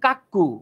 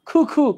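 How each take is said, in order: First: The first consonant is a plain unaspirated k. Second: The first consonant is an aspirated kh. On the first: The speaker calls it wrong. "অনেকে এটার উচ্চারণ করেন কাক্কু" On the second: The speaker calls it right. "তারা কয়রে ক্ষয়ের মতো উচ্চারণ করে"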